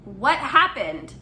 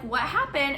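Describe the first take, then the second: First: It is asked in a stern, firm voice. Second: It is asked in a calm, neutral tone.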